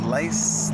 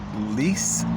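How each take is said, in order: First: The vowel sounds like 'eye'. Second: The vowel sounds like 'ee'. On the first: "I want to say Lice. It doesn't sound right" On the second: "Shirley Lease or Lice"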